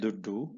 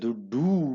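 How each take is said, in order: First: The final vowel is short. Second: The final vowel is long. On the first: It means money. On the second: It means any money at all.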